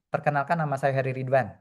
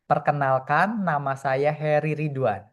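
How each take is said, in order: First: It is said hurriedly and unclearly. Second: It is said slowly, loudly and clearly.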